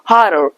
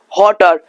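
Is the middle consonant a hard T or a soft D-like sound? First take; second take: soft D; hard T. First: The middle consonant is a soft D-like sound. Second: The middle consonant is a crisp T sound. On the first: The speaker calls it right. "Just try to pronounce" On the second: The speaker calls it wrong. "Don't pronounce the bottle or the hotter"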